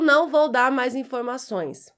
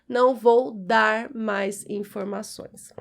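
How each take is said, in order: First: The final R of dar is almost silent. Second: The final R of dar is clearly pronounced. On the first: "esse R fica praticamente apagado na nossa fala" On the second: "veja que eu estou puxando o R"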